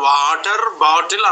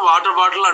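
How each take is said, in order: First: Every syllable of the phrase is said in full. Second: The phrase is clipped into about two syllables. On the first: This is how local speakers have to say it. "మనము ఖచ్చితంగా వాటర్ బాటిల్ అనాల" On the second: This is how native English speakers say it. "రెండే అక్షరాల్లో ముగించేస్తారు"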